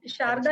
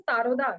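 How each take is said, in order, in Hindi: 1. यह 'sh' से शुरू होता है और इसमें सादा 'a' है। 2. यह 's' से शुरू होता है और इसमें 'o' की आवाज़ है। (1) "वो शारदा नहीं बोलते" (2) "आसाम में जो अ, डिक्शन होता है थोड़ा-सा फ़र्क होता है"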